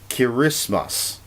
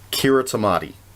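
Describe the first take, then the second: First: The 'ti' is said with an s sound. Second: The 'ti' is said with a t sound. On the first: "the T I is pronounced like an S" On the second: "pronounced it exactly the way it looks"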